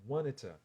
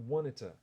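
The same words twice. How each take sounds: No difference in how they are said.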